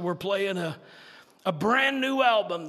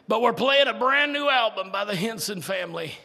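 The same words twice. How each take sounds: First: Said in the usual way. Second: Louder, punchy DJ announcement; radio announcer. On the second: Retold or imitated. Gospel station announcing the new album, hint of announcer. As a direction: sell it like the radio man. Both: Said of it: "and they said".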